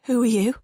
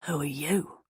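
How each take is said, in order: First: High and loud, a frightened attempt at firmness; tremulous, trying to sound strong. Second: Parrying it back. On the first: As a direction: force it out strong but let it shake. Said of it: "it came out tremulous". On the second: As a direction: throw her question straight back at her. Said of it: "the voice parried". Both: A narrator's reading.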